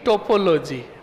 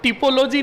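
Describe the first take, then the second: First: The first vowel sounds like 'o'. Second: The first vowel sounds like 'i'. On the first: The speaker calls it right. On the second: The speaker calls it wrong.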